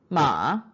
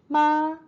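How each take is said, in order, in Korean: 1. 음높이가 낮게 내려갔다가 올라갑니다. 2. 음높이가 높고 평평하게 유지됩니다.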